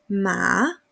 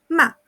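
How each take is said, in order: First: The pitch dips low, then rises. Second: The pitch falls sharply and briefly. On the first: It means horse. "Tercer ejemplo" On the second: It means to scold. "Cuarto ejemplo"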